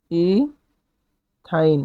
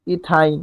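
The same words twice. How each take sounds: First: ইথাইন broken by a long pause, "ee ... thain"; syllable by syllable. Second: Said in the usual way. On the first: Shown as a demonstration. Teacher sounding out the alkyne's name for students, ইথাইন in separated syllables. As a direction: softly split ইথাইন into a stretched "ee", then "thain".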